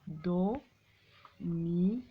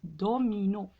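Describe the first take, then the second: First: "Domino" very slowly as do, mi, no; syllable by syllable. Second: Said in the usual way. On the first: Shown as a demonstration. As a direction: dictate "Domino" with long gaps between syllables. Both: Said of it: "frappez les syllabes".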